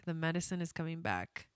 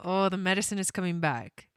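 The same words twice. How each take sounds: First: Choked up. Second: Said in the usual way. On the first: Real, not acted. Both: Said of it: "I'm gonna cry".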